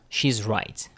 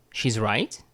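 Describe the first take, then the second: First: "she's right" falling at the end; "she's right" with a final drop on "right"; declarative statement. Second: "She's right" rising on "right"; "She's right" with a questioning upswing; question by intonation. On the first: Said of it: "this is not a question". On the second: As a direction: turn "She's right" into a question by lifting the end. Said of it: "into a question using the intonation method". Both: Shown as a demonstration.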